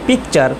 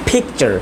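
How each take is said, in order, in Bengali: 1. প্রথম P-তে বাতাসের কোনো ঝলক নেই। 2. প্রথম P-তে বাতাসের একটা ঝলক আছে। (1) "আমরা বলি পিকচার" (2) "আসলে হবে পিকচার"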